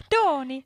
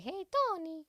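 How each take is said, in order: First: Put-on Italian accent. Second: Put-on high playful Italian accent calling out. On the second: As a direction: call his name like an Italian woman. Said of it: "I try to just do an Italian accent".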